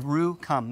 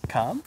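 First: "Rue, come," with a flat, falling, sure tune; "Rue, come," falling, no question in it; firm statement. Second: "Come?" said with a rising, unsure tune; "Come?" rising at the end like a question. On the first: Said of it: "make it a statement". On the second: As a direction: ask "Come?" like a hesitant question. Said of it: "Like a question". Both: Shown as a demonstration.

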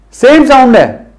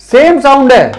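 Both takes have the same delivery.

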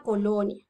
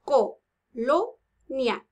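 First: Said in the usual way. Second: "Colonia" very slowly as co, lo, nia; "Colonia" counted out in three separate beats; syllable by syllable. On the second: Shown as a demonstration. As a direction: pause after each syllable of "Colonia". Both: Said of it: "Contemos cuántas tiene colonia".

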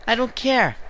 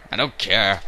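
First: High squeaky I don't care; high mock voice. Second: Said in the usual way. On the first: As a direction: squeak it out mockingly.

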